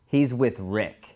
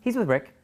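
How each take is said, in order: First: The line is said slowly, after a thinking pause. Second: The line is said quickly, without any pause. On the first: The speaker is thinking before answering. The speaker calls it right. "slow down and say every word" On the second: The answer comes out without thought. The speaker calls it wrong. "Not he's with Rick"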